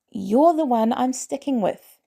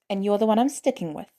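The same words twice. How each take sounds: First: Higher and slower, leaning on "You're"; firm repeat. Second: Said in the usual way. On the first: A narrator's reading. Peter repeating his choice to Barnes, firm and slow. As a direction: say it again, each word set down firmly. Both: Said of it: "Peter repeats".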